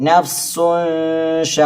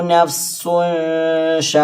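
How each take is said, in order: Both takes have the same delivery.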